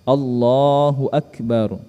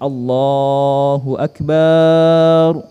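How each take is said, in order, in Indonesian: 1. Suku kata 'ba' dalam Akbar pendek. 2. Suku kata 'ba' dalam Akbar dipanjangkan.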